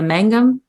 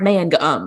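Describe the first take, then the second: First: The first syllable has a nasal 'ang' sound. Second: The first syllable is a hard, separate 'man'. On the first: The speaker's family lives farther north. "born farther north that do a little bit more of the Mangum kind of thing with the ang" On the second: The speaker's family lives elsewhere in the country. "other people really want it to be like a hard man gum"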